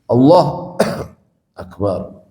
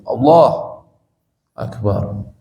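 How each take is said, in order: First: There is a short pause between the words. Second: There is a long pause between the words. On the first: The break is excused, as by a cough. The speaker calls it right. "kalau misalnya jedanya pendek" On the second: The opening takbir must be repeated. The speaker calls it wrong. "Tapi kalau perpanjang"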